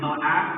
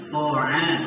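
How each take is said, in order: First: The first consonant sounds thin and light. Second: The first consonant sounds thick and heavy. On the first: The speaker calls it wrong. "bukan to'a" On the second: The speaker calls it right. "sehingga bunyinya menjadi tebal atau tersim"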